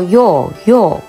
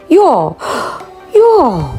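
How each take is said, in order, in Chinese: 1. 两个词连在一起，中间没有换气。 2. 两个词之间会深吸一口气。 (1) "当他们认同你的观点时，他们会说yo yo" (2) "就是在两个yo 中间深吸一口气"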